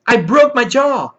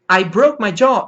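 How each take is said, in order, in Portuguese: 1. É dito com sotaque americano. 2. É dito com sotaque americano.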